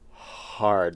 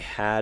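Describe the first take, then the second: First: The R sound is pronounced in the word. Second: The R sound is dropped from the word.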